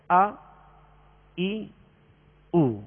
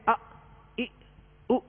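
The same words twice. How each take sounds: First: The vowels are short and smooth. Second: The vowels are cut off with a jolt. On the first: The speaker calls it right. "اس طرح پڑھیں گے" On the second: The speaker calls it wrong. "جھٹکا بھی نہیں دیں گے آ ای او اس طرح بھی نہیں پڑھیں گے"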